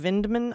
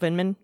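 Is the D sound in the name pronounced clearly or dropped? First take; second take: clearly; dropped. First: The D in the middle is clearly pronounced. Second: The D in the middle is dropped entirely. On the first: "I'm just pronouncing the D, the hard D" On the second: "like there's no D in it"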